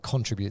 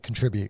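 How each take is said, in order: First: It is said the British way. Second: It is said the American way. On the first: "they don't say contribute" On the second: "people in America, they say contribute"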